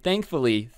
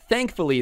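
First: Said in the usual way. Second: Thankfully said much higher with a falling tune; thankfully, pitched up and leaned on; stressed repeat. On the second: Shown as a demonstration.

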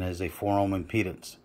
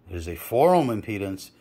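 First: Said in the usual way. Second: "four" lifted above the other words; stress on four. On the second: Real, not acted. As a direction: punch the word "four" with a pitch peak. Repeats it to stress the rating.

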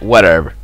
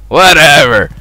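First: Said in the usual way. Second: Exasperated dismissal. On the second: Real, not acted. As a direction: throw WHATEVER out loudly. Repeats it louder.

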